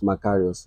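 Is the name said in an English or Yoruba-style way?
English. The name is said in a plain English way. "my own baptismal name is Macarius"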